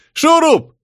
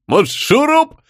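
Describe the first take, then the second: First: Very high, louder call across the crowd. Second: Said in the usual way. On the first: Acted. Tribesman calling Shurup over, loud call. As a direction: hail him from afar.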